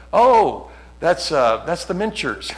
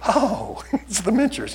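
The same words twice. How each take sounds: First: Imitating wife. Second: High, singsong mocking "oh"; mock echo of wife. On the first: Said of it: "She'll go". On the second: Preacher mimicking his wife's remark in the car, high mock echo. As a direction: echo her in a high, teasing voice. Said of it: "So I'm like".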